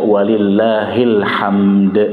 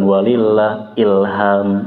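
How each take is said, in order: First: The phrase links 'lillahil' and ends on a clear 'hamd'. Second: The phrase splits before 'ilham' and drops the final d. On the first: All praise belongs to God. The speaker calls it right. "dibaca walillahil hamd" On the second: It sounds like a person's name is being called. The speaker calls it wrong. "Bukan walillah ilham"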